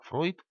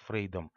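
First: The name is said with an 'oy' vowel. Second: The name is said with an 'ey' vowel. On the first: The speaker calls it right. "а правильно его транскрипция" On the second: The speaker calls it wrong. "Фрейда нельзя называть Фрейдом"

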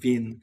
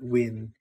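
First: The name is pronounced the German way. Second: The name is pronounced the English way. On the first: The speaker calls it right. "I think it was an Austrian guy. That's why I'm saying Wien. That's the correct pronunciation" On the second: The speaker calls it wrong. "not Wien"

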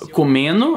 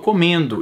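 First: The d in the ending is dropped. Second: The d in the ending is pronounced. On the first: This is the usual regional way of speaking. "Em vez de falar comendo" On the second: This is a consciously corrected way of speaking. "agora eu falo comendo"

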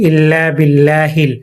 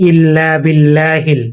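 The two takes are said the same way.

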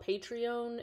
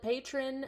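First: It is said with an extra 'ee' sound. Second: It is said like the ordinary word patron. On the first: This is how others have been heard saying it. "I've also heard it called Patreon" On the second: This is how the speaker has been saying it. "I've called it Patron, like an old school patron of the arts"

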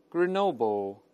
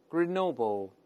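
The two takes are said the same way.

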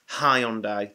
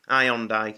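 First: The word starts with an h sound. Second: The word starts without an h sound. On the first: The speaker calls it right. "There's an H in Hyundai" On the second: The speaker calls it wrong. "You may think I've just pronounced that wrong"

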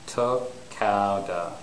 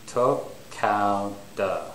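No difference in how they are said.

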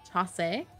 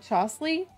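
First: The word contains no L sound. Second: The word contains an L sound. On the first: The speaker calls it right. "Maybe say it like that instead of how whatever I said" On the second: The speaker calls it wrong. "I just said Flea with an L"

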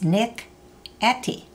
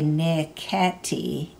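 First: A glottal stop separates the two parts. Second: The two parts run together without a glottal stop. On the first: The speaker calls it right. "Did you notice the glottal stop between the Nick and the Etty?" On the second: The speaker calls it wrong. "Notice we didn't say Nick Etty"

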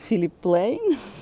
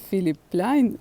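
First: The surname has an 'ey' vowel, like 'plane'. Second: The surname has an 'ai' vowel, like 'line'. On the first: The speaker calls it wrong. "я прочитала Філіп Плейн" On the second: The speaker calls it right. "правильніше Філіп Пляйн вимовляти"

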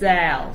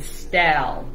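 First: The word starts with a plain s sound. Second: The word starts with an st sound. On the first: The speaker calls it right. "No, sal" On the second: The speaker calls it wrong. "You're saying stal"

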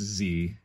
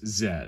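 First: The letter is said the American way, as zee. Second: The letter is said the non-American way, as zed.

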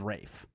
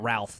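First: The name is said without an L sound. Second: The name is said with an L sound. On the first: The speaker calls it right. "It is Rafe" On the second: The speaker calls it wrong. "It's not Ralph though"

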